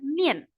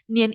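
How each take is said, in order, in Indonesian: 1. Suku kata itu diucapkan dengan nada keempat. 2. Suku kata itu diucapkan tanpa nada keempat. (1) "nada empat" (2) "Nadanya beda"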